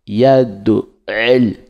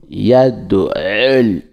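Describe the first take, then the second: No difference in how they are said.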